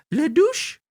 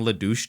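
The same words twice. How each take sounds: First: Very high falsetto French clown; high-pitched French voice. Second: Said in the usual way. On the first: Retold or imitated. Clown making crass jokes to the audience, high-pitched French voice. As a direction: put on a piping French clown voice. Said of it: "to the audience in this high-pitched voice". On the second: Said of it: "keeps saying".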